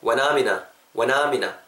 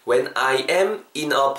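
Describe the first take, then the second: First: I am is joined into one syllable. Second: I am is said as two full words. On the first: "When I'm in a I am 아까 앞에서도 배웠죠. am으로 붙죠" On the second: "When I am in a가"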